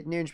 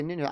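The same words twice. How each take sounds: First: "Nunes" said "noonzh", soft zh ending; Portuguese pronunciation. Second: "Nunes" said "noons", no final s; commentators' pronunciation. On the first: Fan commentator showing the Portuguese way, ending swallowed. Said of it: "the Portuguese like to just not pronounce the end". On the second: Fan commentator mimicking how commentators say the name. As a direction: say "Nunes" plainly as "noon". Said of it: "Commentators sometimes say Nunes". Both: Shown as a demonstration.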